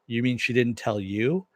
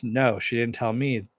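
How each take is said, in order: First: "you" rising at the end as a question; questioning echo. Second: "No" falling, then a falling statement to "me"; firm denial. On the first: Elliot questions Mister Robot, "you" rising in disbelief. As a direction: ask it back, lifting the pitch on "you". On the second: Mister Robot answers Elliot, denial falling on "me". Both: Retold or imitated.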